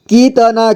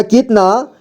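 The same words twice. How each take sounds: First: कितना as कि-त-ना; syllable by syllable. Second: Said in the usual way. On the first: Shown as a demonstration. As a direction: sound out कितना with "ta" on its own. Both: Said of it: "एक ही बार में पढ़ेंगे".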